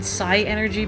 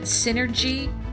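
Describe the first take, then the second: First: It begins with 'sigh', then the word energy. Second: It begins with 'sin', like the word synergy. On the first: "but I always said Psi Energy" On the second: "I think you pronounce it Synergy"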